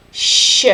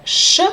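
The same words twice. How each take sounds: First: Sh drawn out long and soft. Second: Short, hard Russian ш sh. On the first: Teacher contrasting the second letter, long soft sh. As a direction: stretch the sh long and gentle. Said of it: "second letter is little bit longer and softer". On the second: Teacher contrasting the hard letter, short hard sh. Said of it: "So compare sh". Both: Shown as a demonstration.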